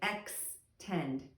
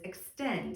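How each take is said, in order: First: The first syllable is sounded out with its decoded sound. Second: The whole word is said clearly and normally. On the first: "how most students would decode it would be with this sound" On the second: "I would say it just clearly and normally"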